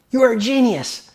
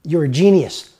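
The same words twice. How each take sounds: First: "are" said higher and longer than the rest; stress on ARE. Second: Said in the usual way. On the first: Retold or imitated. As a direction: hit "are" as if insisting. Woman repeats praise, stressing are.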